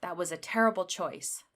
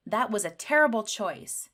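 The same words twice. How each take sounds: First: Said in the usual way. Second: Louder, annoyed "That was a terrible choice"; a touch of anger; angry. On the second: Shown as a demonstration. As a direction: scold it with an exclamation mark. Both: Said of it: "when you're angry".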